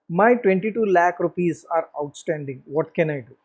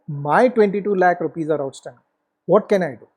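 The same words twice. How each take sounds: First: The voice sounds helpless and defeated. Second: The voice sounds confident and determined. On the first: The speaker feels powerless to recover the money. "the first one, who's the first speaker ... Is it the victim?" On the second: The speaker feels in control and ready to act. "Whereas the warrior says"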